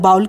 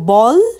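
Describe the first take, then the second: First: The vowel sounds like the one in 'cow'. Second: The vowel sounds like the one in 'ball'. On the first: The speaker calls it wrong. "बाउल कहना इसका भूल pronunciation होगा" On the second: The speaker calls it right. "इसका जो ठीक pronunciation है वो बॉल्स है"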